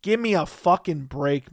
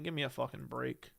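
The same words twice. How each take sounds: First: Slow, punched-out "fucking break"; emphatic exasperation. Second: Low, soft dismissive aside; quiet exasperation. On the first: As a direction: lean hard on "fucking" and "break", drawing it out. Same dismissal repeated with emphasis. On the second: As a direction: say it under your breath, fed up. Muttered dismissal, then repeated emphatically. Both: Real, not acted.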